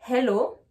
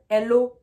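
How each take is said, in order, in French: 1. Le h au début se souffle. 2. Le h au début est muet. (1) "je prends ma respiration pour pouvoir prononcer le H" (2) "je ne vais pas dire"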